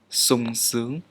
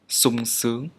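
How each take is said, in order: First: The first consonant is an 's' sound. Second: The same.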